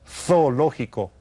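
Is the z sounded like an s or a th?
th. The z is said as a th sound.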